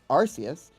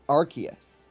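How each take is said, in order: First: The C is said as a soft s sound. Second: The C is said as a hard k sound. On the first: This matches the Japanese pronunciation. "the Japanese pronunciation is Arceus" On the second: This is how the app says the name. "they pronounce it Arceus"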